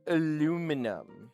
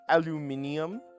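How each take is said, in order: First: It is said the American way, four syllables. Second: It is said the British way, five syllables.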